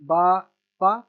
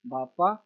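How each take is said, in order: First: Each syllable set apart. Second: Said in the usual way. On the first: Shown as a demonstration. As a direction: sound it out piece by piece for a learner. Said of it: "half half करके". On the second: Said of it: "इसको half करके फिर पढ़ेंगे".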